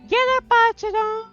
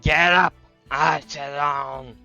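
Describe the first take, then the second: First: It is said in a light, not husky voice. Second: It is said in a husky male voice.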